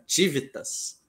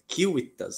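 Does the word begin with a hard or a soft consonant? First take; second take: soft; hard. First: The word begins with a soft consonant sound. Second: The word begins with a hard k sound. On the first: This is not the classical pronunciation. The speaker calls it wrong. "não é Tivitas" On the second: This is the classical pronunciation. The speaker calls it right. "falo na pronúncia clássica"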